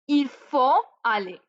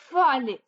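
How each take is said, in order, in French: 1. Le mot 'il' est prononcé au début. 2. Le mot 'il' est omis au début.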